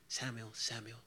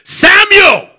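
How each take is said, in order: First: The name is called twice at normal volume. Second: The name is shouted loudly, once.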